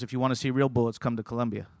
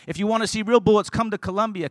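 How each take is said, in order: First: Offhand, lowered retold remark; casual. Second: Higher, driving restatement of a quote; emphatic preaching. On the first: Pastor dropping a remark while passing a car, casual. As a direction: toss it off casually, pitched low. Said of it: "Pastor Bunch just casually said". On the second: Real, not acted. Preacher showing the congregation what a seed is, emphatic preaching. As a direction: proclaim it from the pulpit, pitched up.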